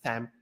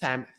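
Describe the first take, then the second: First: The first sound is like th. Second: The first sound is like th.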